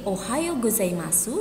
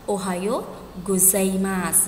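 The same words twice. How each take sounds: First: The final vowel of gozaimasu is pronounced. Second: The final vowel of gozaimasu is dropped.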